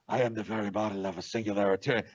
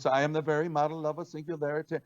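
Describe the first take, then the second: First: The voice is deep, dark and menacing. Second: The voice is light, bright and bouncy. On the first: The speaker calls it right. "I did the voice like Darth Vader" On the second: The speaker calls it wrong. "it was a little too bubbly"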